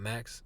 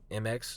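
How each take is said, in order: First: The name is said as one word. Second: The name is spelled out letter by letter. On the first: The speaker calls it wrong. "not Max" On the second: The speaker calls it right.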